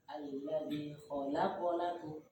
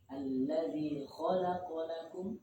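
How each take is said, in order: First: The syllable 'la' is raised and stressed. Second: The stress is on the syllable 'kha'. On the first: The speaker calls it wrong. "dilanya dinaikkan" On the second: The speaker calls it right. "Yang betul itu di kho-nya"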